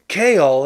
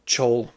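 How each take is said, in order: First: "Chaol" in two parts with a hard K; official name pronunciation. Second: "Chol" with a CH as in chair; simplified name pronunciation. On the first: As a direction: say "Chaol" as KAY-all. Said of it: "they pronounce it". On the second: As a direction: say "Chol" as one syllable, like chole. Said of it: "we're just gonna call him". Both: Shown as a demonstration.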